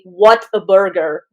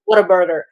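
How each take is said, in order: First: The name is said slowly, word by word. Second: The name is said fast, words run together. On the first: "I realized it's actually What a Burger" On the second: "when you say it fast"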